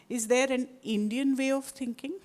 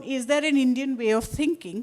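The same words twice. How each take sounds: First: Indian stressed firmly within the question. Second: Said in the usual way. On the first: Shown as a demonstration. Lecturer to audience, demonstrating a question with stress on Indian. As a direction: lean on the word Indian, the rest even. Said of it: "with an emphasis on Indian". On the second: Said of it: "can be asked three, in three different ways".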